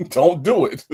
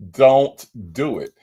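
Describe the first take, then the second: First: Don't do it, through real laughter; laughing warning. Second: Don't do it, slow and pressed, louder; slow down and mean it; firm warning. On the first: Host warning Rainbow off the jurisdiction drinking game, laughing. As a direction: laugh while telling her to stop. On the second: Host warning Rainbow off the drinking game, slow firm warning. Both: Real, not acted.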